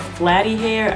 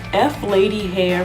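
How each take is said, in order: First: The name is said as one word, 'Flatty'. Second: The name is said as the letter F, then 'Lady'. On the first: "I keep hearing people pronounce it Flatty hair" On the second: "to me F Lady just sounds better"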